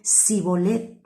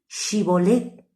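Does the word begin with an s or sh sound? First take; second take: s; sh. First: The word begins with an s sound. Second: The word begins with an sh sound. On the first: The speaker is one of the enemy tribe. The speaker calls it wrong. "no podían decirla solo con Sibolet" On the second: The speaker belongs to the group guarding the river. The speaker calls it right. "pronunciaran bien Shibolet"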